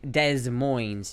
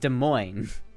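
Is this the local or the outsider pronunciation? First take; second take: outsider; local. First: It is pronounced the way outsiders say it. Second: It is pronounced the way locals say it. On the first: The speaker is not from the area. The speaker calls it wrong. "you're saying it wrong" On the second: The speaker is from the area. The speaker calls it right. "It's Des Moines"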